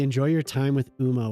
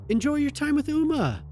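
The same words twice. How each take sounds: First: It is said in a snide, dismissive tone. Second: It is said in a friendly, sincere tone.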